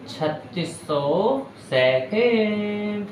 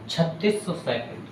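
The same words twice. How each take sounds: First: छत्तीस सौ second stretched out, higher and very slow; slow repeat. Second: Said in the usual way. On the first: Shown as a demonstration. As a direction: drag out छत्तीस सौ second so it sticks. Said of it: "teacher repeats it slowly". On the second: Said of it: "teacher stating the result".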